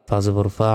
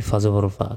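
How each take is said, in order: The two takes are said the same way.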